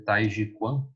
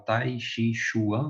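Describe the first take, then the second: First: The last word is said the Chinese way. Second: The last word is said the Brazilian Portuguese way. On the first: This follows the original Chinese pronunciation. The speaker calls it right. "mas é Tai Chi Quan, né, na pronúncia chinesa" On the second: This is how people commonly say it locally. The speaker calls it wrong. "A gente fala"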